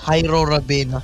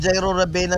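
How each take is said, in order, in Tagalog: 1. Nagsisimula ang pangalan sa tunog na H. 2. Nagsisimula ang pangalan sa tunog na J.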